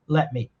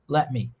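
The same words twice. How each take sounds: First: The T at the end of let is dropped. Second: The same.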